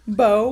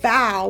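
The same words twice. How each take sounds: First: The vowel sounds like the one in go. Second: The vowel sounds like the one in cow. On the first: It names a knot of tied fabric. "which is the tied fabric" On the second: It means bending forward. "which is bending forward"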